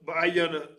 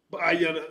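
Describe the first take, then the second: No difference in how they are said.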